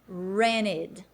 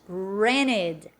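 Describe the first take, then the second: First: The t sound is dropped. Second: The t sound is dropped.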